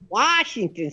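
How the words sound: The word is said in a New York style. "sounds so New Yorkish to me"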